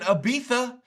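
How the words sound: The name is pronounced the British way. "That's the way they say it in the U K"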